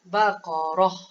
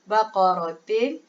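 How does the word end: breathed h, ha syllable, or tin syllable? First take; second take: breathed h; tin syllable. First: The word ends with only a breathed h. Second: The word ends with a full 'tin' syllable. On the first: The speaker calls it right. "kita matikan dia, kita hanya uh, keluar angin saja" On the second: The speaker calls it wrong. "tak boleh baca baqaratin"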